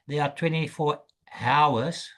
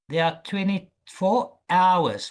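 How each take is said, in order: First: The last word begins with an H sound. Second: The last word begins with a vowel sound. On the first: The speaker calls it wrong. "We don't say there are twenty-four hours. No" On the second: The speaker calls it right. "we start here... We start with the O"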